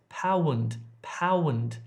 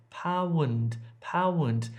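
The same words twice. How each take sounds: The two takes are said the same way.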